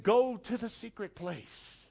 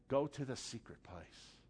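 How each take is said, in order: First: Slow, tender invitation; God's gentle voice. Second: Much softer and lower, almost secret; soft, hushed God voice. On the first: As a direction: ease it out like a calling God. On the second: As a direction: draw them in with a hush. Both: Acted. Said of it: "But God's saying".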